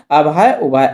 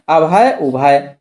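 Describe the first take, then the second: First: Said in the usual way. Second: अभय उभय said slowly, each syllable drawn out and distinct; teacher stretching "अभय उभय" so students hear the difference; slow pronunciation demo. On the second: Shown as a demonstration.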